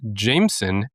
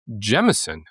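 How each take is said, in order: First: It uses the usual American and British pronunciation. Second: It uses a slightly different Irish pronunciation. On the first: "primarily pronounced Jameson in the U S and the U K" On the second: "In Ireland... pronounced with a slight variation of Jemison"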